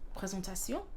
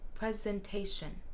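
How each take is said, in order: First: It is said the French way, lips less open. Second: It is said the English way, lips wide open. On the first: "en français" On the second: "qu'en anglais"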